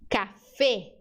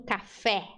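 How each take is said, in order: First: "café" ending in closed ê, Spanish style; "café" with a circumflex-like final E. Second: "café" ending in open é, Brazilian style; softer "café" with Portuguese open é. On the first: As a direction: slowly say "café" as "cafê". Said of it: "Letra E no espanhol é sempre fechada". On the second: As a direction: say "café" with a wide-open final E. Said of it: "não café". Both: Shown as a demonstration.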